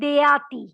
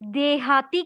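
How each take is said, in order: First: The h sound in the middle is dropped. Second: The h sound in the middle is clearly pronounced. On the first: The speaker calls it wrong. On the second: The speaker calls it right.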